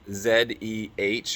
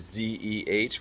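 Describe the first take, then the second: First: The letter Z is said as zed. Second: The letter Z is said as zee. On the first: This is the non-American way of spelling it out. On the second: This is the American way of spelling it out.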